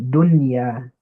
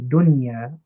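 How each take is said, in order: The two takes are said the same way.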